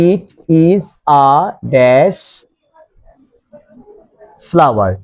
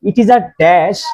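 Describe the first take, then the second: First: "it", "is", "a", "dash", "flower", each set apart by pauses; halting "it... is... a... dash", long wait before "flower"; word-by-word dictation. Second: Said in the usual way. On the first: Shown as a demonstration. Teacher dictates example word by word.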